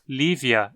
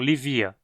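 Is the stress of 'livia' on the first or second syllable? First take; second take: first; second. First: The stress is on the first syllable. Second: The stress is on the second syllable. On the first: The speaker calls it right. "a penúltima sílaba vi tem i curto, então dizemos Lívia" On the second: The speaker calls it wrong. "e não Livia"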